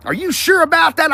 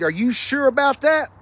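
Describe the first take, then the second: First: Higher, louder doubtful "Are you sure about that?" with stress on sure; meme impression. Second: Said in the usual way. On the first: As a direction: do the skeptical meme guy, leaning on sure. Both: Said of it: "I feel like that guy".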